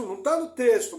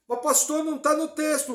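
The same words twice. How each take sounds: First: Said in the usual way. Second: High, loud voice of a doubter; objecting listener. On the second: Pretend. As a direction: voice the congregant's objection. (voz de ouvinte questionando)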